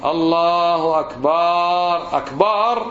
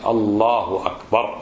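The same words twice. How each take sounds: First: الله أكبر chanted high, أكبر drawn out to "akbaaar"; wrong akbaar. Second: الله أكبر low and measured, short last vowel in أكبر; correct akbar. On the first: Retold or imitated. Teacher imitating muezzins' error, elongated akbaar. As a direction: repeat أكبر with a long raised last vowel. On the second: Shown as a demonstration. Teacher giving the right form after the error, short akbar. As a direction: say "akbar" short, never "akbaar". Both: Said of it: "هي ليست أكبار".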